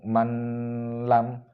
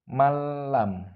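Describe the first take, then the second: First: The sound is read with a nasal hum. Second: The n merges into l with no nasal hum. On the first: The speaker calls it wrong. "Nggak boleh dibaca dengan suara mendengung" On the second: The speaker calls it right. "tanpa suara mendengung"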